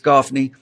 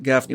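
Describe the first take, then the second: First: The first vowel sounds like the vowel in 'cot'. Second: The first vowel sounds like the vowel in 'cat'. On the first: The speaker calls it right. "but it's Goffney" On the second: The speaker calls it wrong. "I pronounce it Gaffney"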